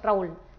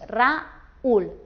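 First: The vowels a and u merge into one syllable. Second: The vowels a and u split into two syllables. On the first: The speaker calls it wrong. "no haríamos Raúl" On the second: The speaker calls it right. "Lo separaríamos y formaríamos un hiato y dos sílabas"

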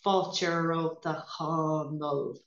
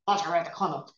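First: It is said very slowly. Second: It is said in an angry tone.

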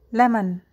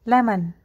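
The two takes are said the same way.

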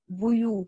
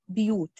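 First: The first consonant is followed by a u vowel. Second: The first consonant is followed by an i vowel.

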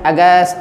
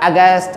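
No difference in how they are said.

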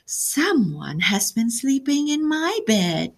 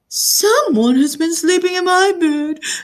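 First: It is said in Mama Bear's medium voice. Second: It is squealed in Baby Bear's tiny voice.

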